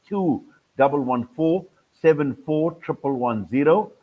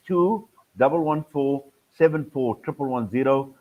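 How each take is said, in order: Both takes have the same delivery.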